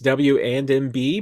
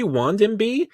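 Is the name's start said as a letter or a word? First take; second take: letter; word. First: It starts with the letter W, then 'and'. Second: It starts with the single word 'wand'. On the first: "I just say it's W and M B" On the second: "but it could be Wand M B"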